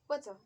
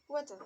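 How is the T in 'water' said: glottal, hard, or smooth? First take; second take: smooth; smooth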